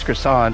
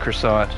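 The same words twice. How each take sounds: First: The final T sound is left silent. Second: The final T sound is clearly pronounced. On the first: This is the proper way to say it. "without the T, with a silent T" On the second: This is the speaker's own habitual way. "we're still just going to go with"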